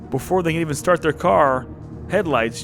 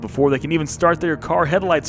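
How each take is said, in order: First: There is a clear pause after car. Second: It runs on with no pause after car. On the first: Headlights appear from elsewhere. The speaker calls it right. "I'm going to read this as if there were punctuation to it" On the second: The car's headlights are meant. The speaker calls it wrong. "No punctuation"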